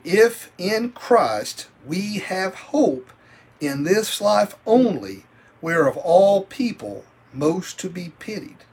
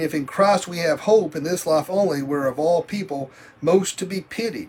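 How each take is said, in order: First: The verse is read slowly. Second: The verse is read fast.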